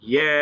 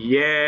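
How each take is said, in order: No difference in how they are said.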